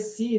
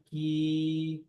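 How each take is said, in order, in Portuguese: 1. A consoante é um som de s sibilante. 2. A consoante é um k forte, da garganta. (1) "eu já alterei o ponto de articulação" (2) "Tá tudo aqui"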